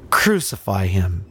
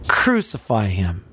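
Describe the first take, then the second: First: Said in the usual way. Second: Unvoiced hushed whisper. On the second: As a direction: breathe the words out, no voice. Same words repeated whispered.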